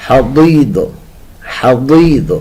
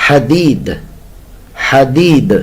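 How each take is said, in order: No difference in how they are said.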